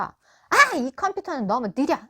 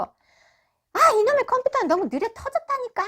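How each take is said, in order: First: Sharp outburst on 아, then grumbling; acted annoyance at a slow computer; mildly exasperated husband; irritated complaint. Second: High-pitched exasperated rant; acted husband losing patience with his computer; angrier voice. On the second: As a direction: let the irritation boil up, pitch jumping high. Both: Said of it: "좀 더 화가 난 목소리로".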